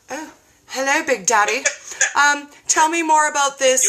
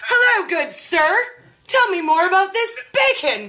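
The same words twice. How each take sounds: First: Mock-seductive purr at the bacon, hammed-up; playfully flirting with a diet video; flirty swoon. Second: Higher, hammed-up seductive greeting; flirty swoon. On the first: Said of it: "and I was like". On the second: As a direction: pretend to woo the video guy, pitch raised.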